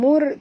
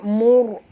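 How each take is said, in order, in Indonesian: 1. Huruf r dibaca tipis dan ringan. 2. Huruf r dibaca tebal dan penuh. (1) "bukan mur" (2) "tapi mur, mur, ya, tebal"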